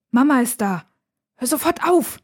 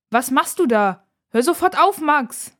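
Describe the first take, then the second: First: High, voiced urgent warning; tense, higher-pitched sibling warning; urgent scolding hiss. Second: Raised, higher-pitched scolding call; loud, high-pitched sisterly reprimand; called out sharply. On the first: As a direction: snap at him to stop now. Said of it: "zischt sie ihren Bruder an". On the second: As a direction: call out to stop him at once. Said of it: "ruft Nora". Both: A narrator's reading.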